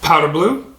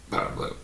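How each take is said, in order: First: Said in the usual way. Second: "Powder Blue" breathed almost silent; whispered "Powder Blue". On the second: Shown as a demonstration. Vlogger repeating shoe name to camera, whispered.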